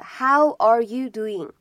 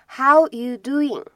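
First: The word 'are' is clearly pronounced. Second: The word 'are' is dropped entirely. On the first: This is the complete, standard form. The speaker calls it right. "它的完整的说法呢应该是How are you doing" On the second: This is a casual, fast spoken form. The speaker calls it wrong. "所以这个are 就感觉好像扔掉了"

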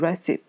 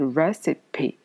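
First: The final e is left silent. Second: The final e is clearly sounded. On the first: The speaker calls it wrong. "不能读成recipe" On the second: The speaker calls it right. "它会把这个e 这个词发出来"

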